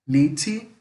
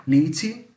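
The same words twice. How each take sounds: The two takes are said the same way.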